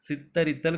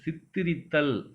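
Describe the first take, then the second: First: The second vowel is an a sound. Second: The second vowel is an i sound. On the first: The speaker calls it wrong. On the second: The speaker calls it right.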